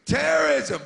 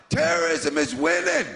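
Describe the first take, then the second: First: Mock alarm. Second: Ominous drop. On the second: Acted.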